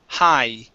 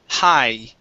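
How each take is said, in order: Both takes have the same delivery.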